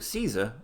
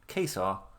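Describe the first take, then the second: First: The word begins with a soft S sound. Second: The word begins with a hard K sound.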